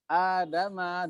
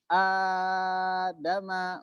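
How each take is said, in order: First: The long vowel is held for two counts. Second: The long vowel is held for four counts.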